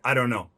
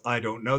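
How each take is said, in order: First: The T in don't is silent. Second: The T in don't is clearly pronounced. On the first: The speaker calls it right. "They would say" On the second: The speaker calls it wrong. "Nobody says"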